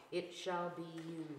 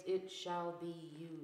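Both takes have the same delivery.

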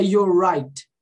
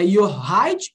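First: "your right" with curled-back Rs; YOUR RIGHT with strong English R; retroflex English R. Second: "your right" with R turned to H; "your right" with breathy H for R; wrong Brazilian R. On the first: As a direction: sound both Rs in "your right". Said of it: "ou é your right?". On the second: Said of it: "é your right ou é your right?". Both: Shown as a demonstration.

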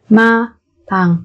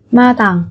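First: Slow, separated syllables for learners; careful teacher's slow model. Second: Said in the usual way. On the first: Shown as a demonstration. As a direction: spell it out slowly, beat by beat.

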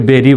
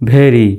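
First: বেরি with a plain b, "beri"; "beri", lips closing on a simple b; common mispronunciation. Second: ভেরি with breathy v-like bh, "bheri"; corrected pronunciation. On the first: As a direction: say বেরি with unaspirated b. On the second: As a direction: open ভেরি on an aspirated bh. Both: Shown as a demonstration. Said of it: "অনেকে বেরি বলে".

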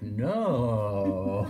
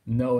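First: Low, breathy, seductive no; mock-seductive, with a laugh; sexy voice. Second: Said in the usual way. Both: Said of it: "like, a sexy voice".

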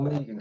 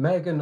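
First: Megan with a long ee, MEE-gan; second name variant. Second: Megan with a short e, MEG-an; first name variant. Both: Shown as a demonstration. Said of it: "can I just ask which one it is".

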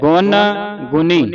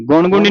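First: ਗੁਣ ਗੁਣੀ as two words, dental n, pause between; said separately. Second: ਗੁਣ ਗੁਣੀ run together with retroflex n; wrongly joined. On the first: Teacher models for student, ਗੁਣ ਗੁਣੀ split by a pause. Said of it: "ਇਹ ਵੱਖਰਾ ਵੱਖਰਾ ਹੈ". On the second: Teacher shows the misreading, ਗੁਣ ਗੁਣੀ run together. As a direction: rush ਗੁਣ ਗੁਣੀ as one word. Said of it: "ਗੁਣ ਗੁਣੀ ਨਹੀਂ ਪੜ੍ਹਨਾ". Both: Shown as a demonstration.

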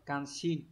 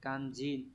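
First: Kanshin with a clear unvoiced sh, not j; wrong reading kanshin. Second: Kanjin with a voiced j sound in the middle; correct reading kanjin. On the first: Teacher showing students the wrong reading, kanshin with a hissed sh. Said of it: "Không đọc là kanshin". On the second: Teacher giving students the right reading, Kanjin with a voiced j. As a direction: say Kanjin, buzzing the j clearly. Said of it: "từ này đọc là kanjin nhá". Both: Shown as a demonstration.

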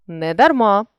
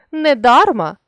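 First: Недарма with final МА stressed; stress on last syllable. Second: Недарма with ДАР stressed; stress on middle syllable. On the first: Teacher shows a stress variant, недарма stressed on МА. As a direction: land on МА ending недарма. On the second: Teacher shows a stress variant, недарма stressed on ДАР. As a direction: lean on ДАР inside недарма. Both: Shown as a demonstration. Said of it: "наголосивши той чи інший склад".

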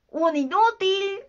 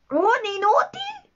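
First: High, drawn-out "Un inútil" as a verdict; slow mocking answer on "Un inútil"; taunting voice. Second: Very high, rising "¿Un inútil?"; slow, incredulous high-pitched "¿Un inútil?"; confused echo. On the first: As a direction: state "Un inútil" slowly, stretching the insult. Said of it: "retomó la voz". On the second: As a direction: repeat "¿Un inútil?" as a bewildered question. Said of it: "repitió Garfio, confuso". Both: A narrator's reading.

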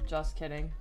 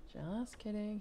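First: Said in the usual way. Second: Repeated softly as a private aside; softer aside. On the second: Acted. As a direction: drop the volume and toss it off.

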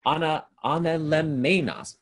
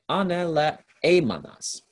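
First: False start on "ana-", then a loud, higher "anelemenas"; stumbled Greek pronunciation. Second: Slow, loud, higher "aneleemanas", syllable by syllable; corrected Greek pronunciation. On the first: Teacher tripping over a Greek word he reads aloud, "anelemenas" misspoken. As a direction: botch "anelemenas" with "men" where "e-e-mon" belongs. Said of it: "uh, sorry".

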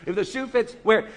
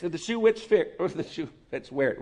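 First: Said in the usual way. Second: Garbled 'if the shoe which fit'; fumbled idiom. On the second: Real, not acted. Pastor fumbling the proverb mid-sermon, garbled. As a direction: trip over the saying 'which fit'. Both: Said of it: "Whatever I said".

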